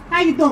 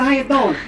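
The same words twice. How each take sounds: First: It is said in a New York accent. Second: It is said in a Hawaiian accent. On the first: "I have a cousin from New York. He talks like this" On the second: "I have a cousin from Hawaii, too. He talks like this"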